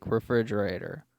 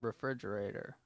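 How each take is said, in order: First: Very loud, close on the mic; right into the mic. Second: Said in the usual way. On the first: Shown as a demonstration. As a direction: lean in and say it into the mic. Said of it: "Directly into the mic". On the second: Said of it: "let's just both do a test".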